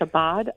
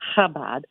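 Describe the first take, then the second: First: The word begins with a 'ch' sound. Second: The word begins without a 'ch' sound. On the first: The speaker calls it wrong. "I said that wrong because I said the C H" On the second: The speaker calls it right. "and you really don't"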